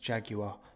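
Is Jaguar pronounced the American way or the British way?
British. It is said with a British pronunciation. The speaker calls it right. "it's Jaguar"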